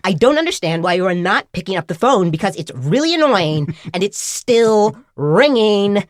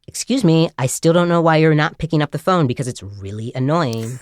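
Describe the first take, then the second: First: Mimicked nag rising higher and louder; irritated ringtone voice. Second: Lightly mimicked recorded nag; a hint of a miffed Valley girl; nagging ringtone voice. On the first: Phone scolding a stranger who won't answer, mounting irritation. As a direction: stretch the end into an exasperated whine. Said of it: "getting more and more irritated with me". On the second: Ringtone scolding a stranger for not answering, mildly annoyed. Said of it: "then it continues, and it's like".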